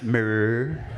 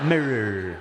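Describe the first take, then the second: First: The R sounds are strong and rolled out. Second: The R sounds are strong and rolled out.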